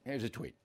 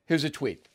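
First: Much quieter echo; softer repeat. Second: Said in the usual way. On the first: Real, not acted. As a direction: repeat it under breath.

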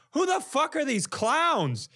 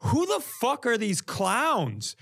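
First: Much higher, slow disbelief; retold shocked outburst, pitched way up; louder incredulity. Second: Higher, slow, baffled; retold baffled swearing; incredulous outburst. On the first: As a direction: really let the disbelief rise. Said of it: "I just went". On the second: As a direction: blurt it out in disbelief. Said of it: "I go".

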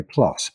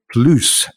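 First: Said in the usual way. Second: PLUS said "ploos", higher, with an oo; military-speak pronunciation. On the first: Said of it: "plus, P L U S". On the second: Shown as a demonstration. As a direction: say PLUS as "ploos" to rhyme with goose. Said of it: "pronounced that way".

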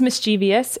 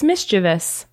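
First: "mischievous" as mis-CHEE-vee-us; four syllables in "mischievous", stressed ee; mistaken pronunciation. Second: "mischievous" as MIS-chiv-us; three syllables in "mischievous", stress first; correct pronunciation. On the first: Telling what I always thought it was, mistaken pronunciation. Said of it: "I always thought it was mischievous". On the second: Correcting what I always thought, three-syllable pronunciation. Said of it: "I always thought it was". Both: Shown as a demonstration.

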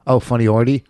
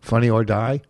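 First: "Funny Ordy" with a dee ending; mispronounced OR-dee. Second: "Funny or die" ending like "eye"; correct "or die". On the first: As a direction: echo "Ordy" as one word, OR-dee. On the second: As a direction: say "or die" as two words, questioning. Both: Shown as a demonstration. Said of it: "What do you mean Funny Ordy?".

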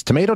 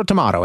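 First: "tomato" said to-MAY-to; "may" pronunciation. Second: "tomato" said to-MAH-to; "mah" pronunciation. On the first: Host shrugs off the coupon question, "tomato" as to-MAY-to. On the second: Host accepts either version, "tomato" as to-MAH-to. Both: Shown as a demonstration. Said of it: "I think either pronounce".

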